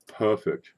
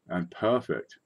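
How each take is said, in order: First: Perfect said in a posh British accent, a clipped crisp "Perfect". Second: Said in the usual way. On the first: Shown as a demonstration. Coin seller repeating the grade to viewers in a British accent. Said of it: "Say it like you're British". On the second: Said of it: "Say it that way".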